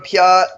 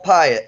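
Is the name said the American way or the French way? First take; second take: French; American. First: The name sounds like 'pee-aht', French-style. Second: The name sounds like 'pie-it', American-style. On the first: "that French sort of Piat" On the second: "but American is apple pie it"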